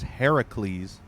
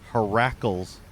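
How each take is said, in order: First: The ending does not rhyme with 'shackles'. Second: The ending rhymes with 'shackles'. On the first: The speaker calls it right. "His true pronunciation in Greek mythology is Heracles" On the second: The speaker calls it wrong. "I pronounced him Heracles for some reason, like shackles"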